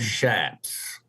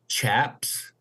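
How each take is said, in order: First: The word begins with an 'sh' sound. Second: The word begins with a 'ch' sound. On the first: The speaker calls it right. "instead of shaps" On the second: The speaker calls it wrong. "pronounce it chaps"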